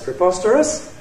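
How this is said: The pitch rises from a high point. "High rise"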